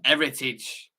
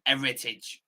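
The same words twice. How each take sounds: First: Said in the usual way. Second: Heritage with its opening E drawn out and stressed; E emphasised. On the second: Shown as a demonstration. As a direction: lean hard on the E in Heritage. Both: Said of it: "It's gotta be emphasised with the E".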